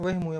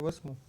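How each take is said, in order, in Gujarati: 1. મધ્યનો વ્યંજન h અવાજ છે. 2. મધ્યનો વ્યંજન s અવાજ છે. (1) "એ તળપદો શબ્દ છે" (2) "ખરેખર શિષ્ટ રૂપ છે વસમું"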